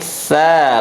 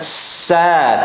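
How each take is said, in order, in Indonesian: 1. Konsonannya diucapkan dengan hembusan udara yang lembut. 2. Konsonannya diucapkan dengan desis yang tajam. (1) "lembut anginnya" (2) "Jangan kita ucapkan sa"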